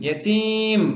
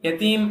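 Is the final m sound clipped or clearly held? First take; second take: clearly held; clipped. First: The final m is pronounced fully and clearly. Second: The final m is cut short abruptly. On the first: The speaker calls it right. "ம் நல்லா சொல்லணும்" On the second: The speaker calls it wrong. "யதீம் அப்படின்னு முடிச்சிடக்கூடாது"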